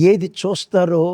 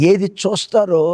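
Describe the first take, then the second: No difference in how they are said.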